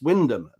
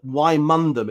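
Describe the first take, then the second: First: The name is said shortened, as Wyndham. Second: The name is said in full, as spelled. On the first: "but it's pronounced Wyndham" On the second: "it's written"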